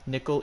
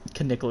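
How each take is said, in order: First: The word starts with an N sound, no K. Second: The word starts with a K sound before N. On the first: The speaker calls it wrong. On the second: The speaker calls it right.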